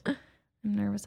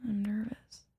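First: Laughing it out slowly; nervous laugh. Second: Whispered confession; nervous whisper. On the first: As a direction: giggle through the words. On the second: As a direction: breathe it nervously. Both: Real, not acted.

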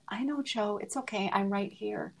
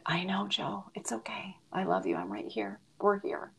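First: Softer, holding back tears; a tender, quietly tearful goodbye; choked up. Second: Soft, broken whisper at the bedside; comforting a dying friend in a whisper; tearful whisper. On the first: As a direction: say it gently as emotion rises. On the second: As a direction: hush it, comforting through tears. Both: Real, not acted. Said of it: "I'm gonna get so, so emotional".

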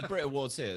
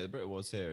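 First: Mock announcer. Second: Said in the usual way. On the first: Shown as a demonstration.

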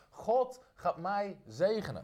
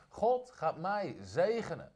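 First: Slow, deliberate proclamation; slow, weighty confession of faith; slow declaration again. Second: Slow, deliberate proclamation; slow, weighty confession of faith; slow declaration. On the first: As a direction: let each word land slowly. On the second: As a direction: spell it out slowly for the church to repeat. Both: Shown as a demonstration. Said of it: "Zeg het eens hardop".

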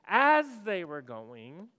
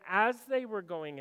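First: AS stretched long and punched loud; big, drawn-out AS, then the rest falls in behind; stress on AS. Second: Said in the usual way. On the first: Shown as a demonstration. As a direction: lean hard and slow on the word "as". Repeats scripture phrase to underline AS.

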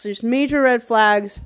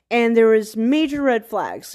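First: Major drawn out and leaned on, slower; slow down and press on major; stress on major. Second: Said in the usual way. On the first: Shown as a demonstration. Warning a friend about her date, stress on major.

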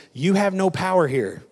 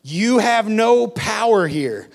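First: Said in the usual way. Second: Higher, louder and slow, hit "no"; forceful declaration. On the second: Acted. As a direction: proclaim it like a command over enemies. Repeated louder, slower.

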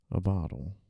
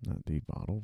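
First: "a" clearly stressed in "a bottle". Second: "the bottle" said quieter, with a rise on "bottle"; softer contrast take, "bottle" rising; stress on bottle. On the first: Writer dictating, marks the article "a" with stress. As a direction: lean on "a", not "the". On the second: Writer dictating, contrasting "the bottle" with "a bottle". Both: Shown as a demonstration. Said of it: "so I can't just say the".

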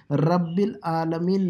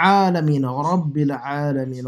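First: "العالمین" with a plain long a, no ayn; wrong plain vowel. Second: "عالمین" opening on a strong squeezed ayn; ayn from the throat. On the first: Teacher showing the mistake, plain a in "العالمین". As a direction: say "رب العالمین" without any throat squeeze on the a. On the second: Teacher correcting the reading, throaty ayn in "عالمین". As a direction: hit the pharyngeal ayn at the start of "عالمین". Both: Shown as a demonstration. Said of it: "نہیں ہے".

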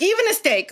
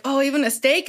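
First: "Even a steak" pitched high, falling at the end; emphatic echo. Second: "even a steak" asked lightly, rising on STEAK; tentative question. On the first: Host reassuring her guest, emphatic high "Even a steak". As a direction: throw "Even a steak" back high and certain. Emphatic answer echoing the question. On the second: Diner asking his host, tentative rise on "steak". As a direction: check modestly, lifting "steak" into a question. Asks, then answered in same words. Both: Retold or imitated.

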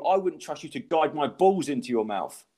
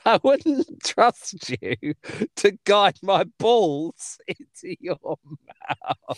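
First: Said in the usual way. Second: Slow, drawn-out quote; quoting the punchline slowly, amused; slow relish. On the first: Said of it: "Mate, state of you". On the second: Retold or imitated. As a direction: savour every word of the line. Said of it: "How is that a joke?".

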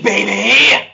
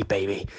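First: Loud high wrestler shout; booming wrestler boasts. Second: Said in the usual way. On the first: Acted. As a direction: yell it like a wrestling promo. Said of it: "I'll do it in my best wrestler voice".

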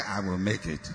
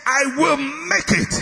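First: Mocking a half-hearted congregation, low and quiet; limp mumble. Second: Higher, slow and firm, every word planted; forceful declaration. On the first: Preacher mocks the church's weak reply, limp mumble. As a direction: mumble it like you don't believe it. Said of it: "did I say". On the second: Shown as a demonstration. Preacher shows the congregation how to say it, forceful declaration. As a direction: declare it like you mean it. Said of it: "I say, say".

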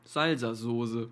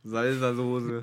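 First: Salsa-Soße said very slowly, zalzazoze; Salsa-Soße stretched out with emphasis. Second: Salsa-Soße said slowly as one word, zalzazoze; Salsa-Soße drawn out syllable by syllable. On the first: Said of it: "Er sagt immer". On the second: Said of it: "der sagt das for real". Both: Retold or imitated.

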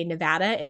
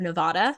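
First: "Nevada" with short "a" as in "cat"; correct Nevada pronunciation. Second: "Nevada" with "ah" in the middle; wrong Nevada pronunciation. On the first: Miss Nevada teaching everyone, "Nevada" with the "a" of "cat". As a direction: say nuh-VA-duh for "Nevada". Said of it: "trying to get everyone to say". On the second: Miss Nevada showing the mistake, "Nevada" said with an "ah". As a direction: say nuh-VAH-duh for "Nevada". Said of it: "instead of Nevada". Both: Shown as a demonstration.

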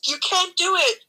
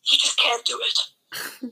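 First: Said in the usual way. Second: Slow, each word weighed; slow emphatic. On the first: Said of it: "millions of people are telling you". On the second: Real, not acted. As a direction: spell it out slowly and flatly.

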